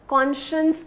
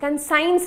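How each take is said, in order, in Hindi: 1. शब्द का अंत नरम 'shuss' जैसा होता है। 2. शब्द का अंत 'science' जैसा सुनाई देता है। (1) "इसका प्रोनाउंसिएशन ध्यान से सुनिएगा, कॉन्शियस कहते हैं" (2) "कंसाइंस नहीं होता ये"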